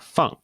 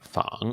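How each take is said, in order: First: The pitch falls sharply from high to low. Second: The pitch dips low and then rises. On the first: It means to put down. "in the fourth tone, we have uh, feng" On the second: It means to imitate. "in the third tone, we have fang"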